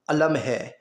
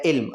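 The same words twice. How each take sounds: First: علم said as a-lam, zabar on both letters; علم with short a on both syllables, meaning flag; pronunciation alam. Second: علم said as ilm, zer under the first letter; علم with short i then a closed lm, meaning knowledge; pronunciation ilm. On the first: Teacher to pupils, علم as a-lam. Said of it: "دونوں اوپر زبر ہے تو اس کا مطلب کیا ہے کہ پ-، پرچم ہے". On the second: Teacher to pupils, علم as ilm. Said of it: "اب نیچے زیر ہے". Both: Shown as a demonstration.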